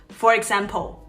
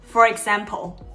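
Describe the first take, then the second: The two takes are said the same way.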